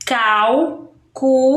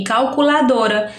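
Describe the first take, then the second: First: "Calculadora" as "cal... cu... la... do... ra", slow with pauses; spaced-out syllables of "Calculadora" for counting. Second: Said in the usual way. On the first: Shown as a demonstration. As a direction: chop "Calculadora" into five separate beats. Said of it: "eu tenho aí quantos sons". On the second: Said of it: "Um exemplo aqui".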